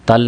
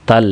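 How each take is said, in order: The two takes are said the same way.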